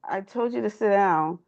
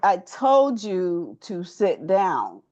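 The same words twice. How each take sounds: First: It is said in a calm, normal voice. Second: It is said in a raised, firmer voice. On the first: The request is not taken seriously. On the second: The request is meant seriously and obeyed.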